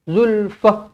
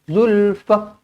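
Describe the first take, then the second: The two takes are said the same way.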